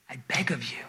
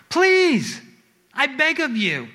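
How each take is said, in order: First: Whispered plea; begging. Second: High, heartfelt begging; pleading. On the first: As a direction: beg softly, almost without voice. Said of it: "God is begging us". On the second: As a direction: plead urgently, pitched well up. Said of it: "We beg and plead God". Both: Acted.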